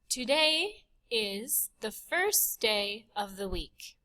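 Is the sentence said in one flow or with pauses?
one flow. The sentence is said in one unbroken breath.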